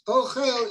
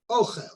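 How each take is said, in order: First: The stress is on the second syllable. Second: The stress is on the first syllable. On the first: It is a verb meaning he is eating. "the emphasis is on the second syllable" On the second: It is a noun meaning food. "which has the emphasis on the first syllable"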